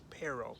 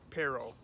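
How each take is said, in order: First: It is said with an English accent. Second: The same.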